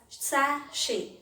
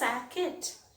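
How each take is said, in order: First: The middle sound is sh. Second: The middle sound is k. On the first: The speaker calls it right. "It is pronounced as sachet" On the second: The speaker calls it wrong. "It is not pronounced as sacket"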